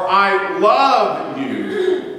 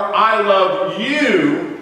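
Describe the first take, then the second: First: The stress is on "love". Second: The stress is on "you".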